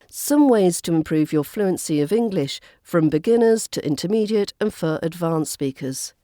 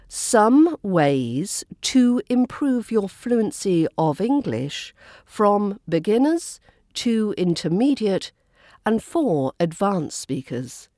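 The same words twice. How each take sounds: First: The small linking words are reduced and run together. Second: The small linking words are said fully and clearly. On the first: "this time with the weak version" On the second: "that was using the stronger version of the words"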